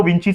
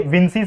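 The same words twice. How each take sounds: First: विंची with ch, not s; 'विंची' pronunciation. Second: विंसी with a soft s, not ch; 'विंसी' pronunciation. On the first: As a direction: end विंची on a 'chee' sound. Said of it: "विंची समझ लो". (विंची को 'च' से बोलते हुए) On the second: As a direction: end विंसी on a 'see' sound. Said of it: "तो ये विंसी समझ लो". (विंसी को 'स' से बोलते हुए) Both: Shown as a demonstration.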